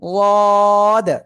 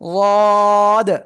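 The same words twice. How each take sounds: Both takes have the same delivery.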